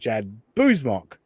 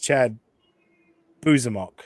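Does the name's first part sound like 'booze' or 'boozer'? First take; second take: booze; boozer. First: The first part sounds like plain 'booze'. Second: The first part sounds like 'boozer'. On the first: The speaker calls it right. "you just say booze" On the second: The speaker calls it wrong. "Aaron says Chad Boozemok"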